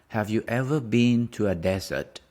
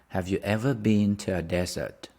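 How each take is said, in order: Both takes have the same delivery.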